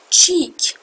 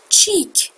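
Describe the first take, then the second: No difference in how they are said.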